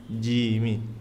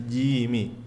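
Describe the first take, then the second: Both takes have the same delivery.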